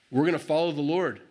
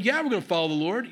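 First: First, measured declaration of resolve; determined. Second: Higher-pitched, insistent comeback; building insistence. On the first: People first pledging to follow the Lord, determined. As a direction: state it firmly, before it builds. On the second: People answering Joshua's doubt, insistent. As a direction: push back, pitch climbing with resolve. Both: Retold or imitated. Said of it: "it's a building thing".

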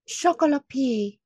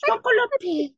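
First: Panicked fake French, pitched up; mock French accent. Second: Higher, laughing fake French; mock French accent. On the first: Sister faking French for the family, in mock French accent. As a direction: blurt it in a bad French accent. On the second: Sister repeating her fake French, in mock French accent. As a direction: blurt it again in bad French. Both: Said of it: "I just went".

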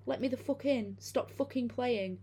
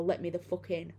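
First: High, slow, halting inhuman voice; halting, weird voice. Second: Said in the usual way. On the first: Retold or imitated. Creature at the door demanding to be let in, halting eerie high voice. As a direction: mimic a creature that learned to talk, stiff and unnatural. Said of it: "in this halting, weirdly toned voice". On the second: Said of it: "it just keeps saying".

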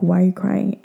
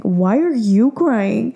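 First: Said in the usual way. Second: "you" drawn out and raised in the question; stress on YOU. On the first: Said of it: "In English, he's like". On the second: Retold or imitated. Daughter turns dad's question back on him, stress on YOU. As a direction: turn it back on him, leaning long on "you". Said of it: "And I'm like".

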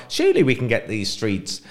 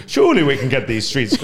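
First: Said in the usual way. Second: Weak attempt at a Scottish accent. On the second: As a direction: say it like a Scot, half-hearted. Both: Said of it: "I was gonna do a Scottish accent".

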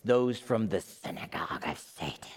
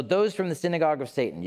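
First: Low, whispered rasp, hammed-up menace; raspy voice. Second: Said in the usual way. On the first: Shown as a demonstration. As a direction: rasp it out softly like a mock villain. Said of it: "read it with a raspy voice". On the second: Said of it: "you kinda have to read it".

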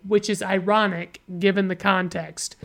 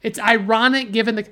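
First: Said in the usual way. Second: Mocking repetition. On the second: Reviewer parroting a pointless trivia post, mocking. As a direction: throw their words back in scorn.

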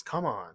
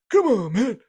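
First: Said in the usual way. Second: Loud, high-pitched exasperated politician voice; much higher, louder mock plea; Joe Biden impression. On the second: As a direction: burst out in a hammed-up presidential impression. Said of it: "Joe Biden voice".

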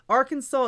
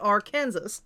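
First: Arkansas said AR-kan-saw, silent final S; correct pronunciation. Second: Arkansas said ar-KAN-zus, like Kansas; wrong pronunciation. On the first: Host showing the legal way to say the state, Arkansas pronounced AR-kan-saw. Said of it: "is legally supposed to be pronounced". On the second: Host showing the wrong way to say the state, Arkansas pronounced ar-KANSAS. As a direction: sound the hard S ending Arkansas. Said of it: "say it wrong with a hard S". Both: Shown as a demonstration.

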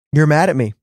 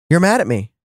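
First: Lightly voiced, matter-of-fact statement; Holy Spirit quoted. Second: Mildly puzzled echo of an accusation; taken aback. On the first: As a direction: say it as a simple, knowing statement. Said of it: "the Holy Spirit said". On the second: Retold or imitated. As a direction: repeat it back in mild disbelief. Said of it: "And I was like".

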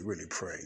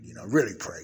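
First: Said in the usual way. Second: "really" punched much louder; stress on really. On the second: Real, not acted. Asking the saints for prayer, stressing really loud. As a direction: hit "really" hard, earnest plea. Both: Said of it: "I don't say that loosely".

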